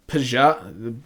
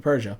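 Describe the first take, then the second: First: Peugeot said as puh-ZHAH with a rising, unsure tune; anglicized Peugeot, puh-zhah; Americanized name, questioning. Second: Peugeot said as PUR-zhuh, quietly and settled, with a falling tune; French-style name. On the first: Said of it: "what do Americans say?". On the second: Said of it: "I guess that's how you do it". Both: Shown as a demonstration.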